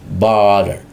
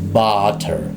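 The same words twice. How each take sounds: First: The middle t sounds like a quick d. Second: The middle t is a clear t sound. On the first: This is casual everyday speech. "Tapi dalam percakapan biasanya orang Amerika usually in daily conversation" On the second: This is formal speech. "tapi di dalam fonetiknya ketika secara formal maka dibacanya butter"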